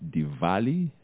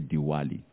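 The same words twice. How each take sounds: First: The middle consonant is a v sound. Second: The middle consonant is a w sound.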